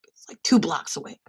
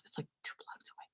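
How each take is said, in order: First: Said in the usual way. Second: Whispered, no voice at all; whispered aside. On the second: Real, not acted. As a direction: drop to a whisper first. Whispered aside, then said normally.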